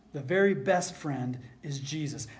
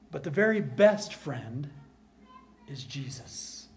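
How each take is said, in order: First: Said in the usual way. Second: Very stressed. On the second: Shown as a demonstration. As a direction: build on "very", fall away at the end.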